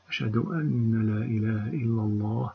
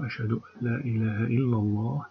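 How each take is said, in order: First: The n before 'la' is doubled and held. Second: The n before 'la' merges into the l. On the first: The speaker calls it wrong. "هذا النطق خاطئ تماما" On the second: The speaker calls it right. "هنا النون ساكنة مدغمة في اللام ولا يصح النطق بها مشددة"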